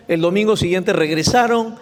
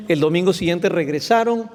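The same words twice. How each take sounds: The two takes are said the same way.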